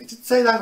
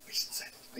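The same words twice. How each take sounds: First: Said in the usual way. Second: Whisper. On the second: Pretend. Playful denial, whispered then said.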